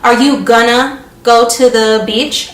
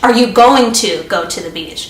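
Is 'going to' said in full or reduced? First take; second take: reduced; full. First: Going to is reduced to a quick gonna. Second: Going to is said in full, two clear words.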